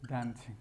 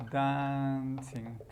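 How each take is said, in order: First: Said in the usual way. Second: "dancing" stretched long, first syllable held level; drawn out. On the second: Shown as a demonstration. Teacher shows the gerund of dance, drawn out. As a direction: say "dancing" very slowly for learners. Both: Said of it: "Y dance sería".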